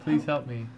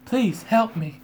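First: It is said in a normal voice. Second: It is said in a put-on Zelda voice.

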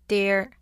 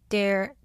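Both takes have the same delivery.

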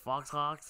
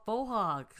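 First: The first word is said like 'fox'. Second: The first word ends in a vowel, like 'foe'. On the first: The speaker calls it wrong. "what are you saying?" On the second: The speaker calls it right. "They're called faux hawks"

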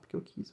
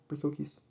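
First: It sounds boastful and mocking, trailing on. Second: It sounds gruff, ending with a sharp cut. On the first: The character sounds cocky and teasing. "de uma forma bem fanfarrônica" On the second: The character states it flatly, end of discussion. "De uma forma um pouco mais grossa"

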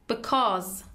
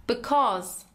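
Both takes have the same delivery.

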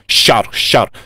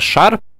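First: The sh sound is soft, like shch. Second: The sh sound is hard. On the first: The speaker calls it wrong. "то есть они как бы так «щар»" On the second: The speaker calls it right. "вместо шар"

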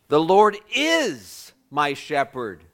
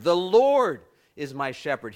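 First: The stress is on the word is. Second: The stress is on the word Lord.

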